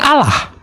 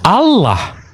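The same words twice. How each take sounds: First: The L sound in the middle is short. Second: The L sound in the middle is long. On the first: "kalau L-nya satu kan Allah" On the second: "Kalau dua?"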